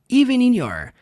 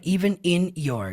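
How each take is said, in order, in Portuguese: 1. As palavras são ligadas suavemente, juntas. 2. As palavras são ditas separadamente, não ligadas. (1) "você vai juntar" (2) "Não é even in your"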